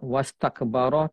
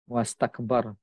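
First: The word ends with an added final vowel. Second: The word ends on a consonant with no vowel. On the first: The speaker calls it wrong. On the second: The speaker calls it right.

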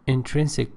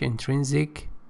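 First: It is said with a British accent. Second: It is said with an American accent. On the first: "British English" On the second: "American English"

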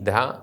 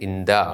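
First: The consonant is soft and fricative. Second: The consonant is doubled and held longer. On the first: "മൃദുവായി" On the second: "ഇരട്ടിച്ച്"

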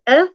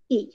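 First: The vowel is short, as in bed. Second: The vowel is long, as in bee. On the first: "The short sound of E is" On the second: "the long sound of E is"

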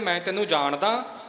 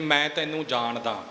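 First: It is said in a doubtful, questioning tone. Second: It is said as a plain, matter-of-fact statement. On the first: The speaker wonders whether they really know each other. "ਇਹ ਇੱਕ ਸ਼ੰਕੇ ਵਾਲੀ ਗੱਲ ਆ ਗਈ" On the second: The speaker simply knows the other person. "ਇਹ ਅਰਥ ਆਪਾਂ ਸਾਰੇ ਸਮਝ ਸਕਦੇ ਹਾਂ"

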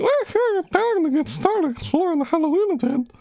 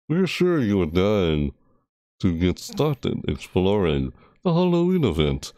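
First: It is read in a put-on anime girl voice. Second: It is read in a put-on Dracula-like voice. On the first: "it's more like this" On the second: "I started reading it like Dracula"

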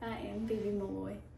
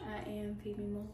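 First: It is said loudly, in a commanding voice. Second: It is said at a normal, quieter volume.

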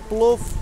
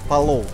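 First: The word is one syllable with no vowel after p. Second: The word has two syllables with a vowel after p. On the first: It is the shortened form people wore down over time. "человек постепенно буквы съедали, вот поэтому получился плов" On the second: It is the original full form of the word. "у нас в Таджикистане все говорят «полов», правильно"

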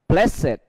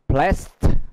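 First: The ending is a separate extra syllable. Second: The ending adds no extra syllable. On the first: It is the adjective form. "khi tính từ" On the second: It is the verb form. "khi nó là động từ"

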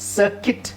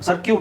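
First: The second syllable sounds like kit. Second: The second syllable sounds like kyoot. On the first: The speaker calls it right. "Actually ಇದೇನಿದು" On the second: The speaker calls it wrong. "ಕನ್ನಡದಲ್ಲಿ ಸರ್ಕ್ಯೂಟ್ ಅಂತ ಹೇಳ್ತಾರೆ"

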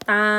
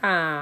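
First: The syllable is said on a level mid tone. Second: The syllable is said on a low tone. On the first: "เสียงสามัญมาคำว่าตออาตา" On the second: "เสียงเอกก็ใส่ไม้เอก"

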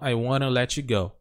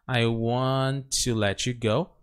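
First: Want to is reduced with an r-like sound. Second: Want to is said in full, both words.

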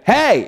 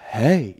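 First: The word is said loudly and forcefully. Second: The word is said softly and quietly. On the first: The speaker calls it right. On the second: The speaker calls it wrong.

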